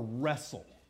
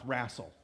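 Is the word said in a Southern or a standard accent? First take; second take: standard; Southern. First: It is said in the speaker's usual accent. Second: It is said in a Southern US accent.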